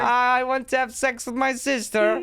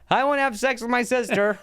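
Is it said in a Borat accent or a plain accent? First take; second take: Borat accent; plain accent. First: It is said in a Borat-style accent. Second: It is said in the speaker's normal accent.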